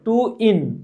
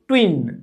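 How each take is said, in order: First: The word is split into two separate parts. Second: The word is joined into one smooth syllable. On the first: "जीवा पलटता है तो बोलो टू इन" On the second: "हाँ अब हुआ"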